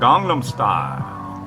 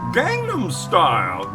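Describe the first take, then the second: First: The vowels in Gangnam sound like open 'ah'. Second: The vowels in Gangnam sound like 'cat'. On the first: The speaker calls it right. "it's quite evident and clear that [name] says" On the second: The speaker calls it wrong. "Can people say that? No"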